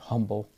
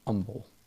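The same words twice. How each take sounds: First: The word starts with an audible H sound. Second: The word starts without any H sound.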